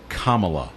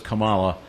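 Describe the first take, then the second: First: The stress is on the first syllable. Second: The stress is on the second syllable. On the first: This is the running mate's name. "you pronounce the first two syllables of her name like comma" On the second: This is the wrestler's name. "The wrestler was Kamala"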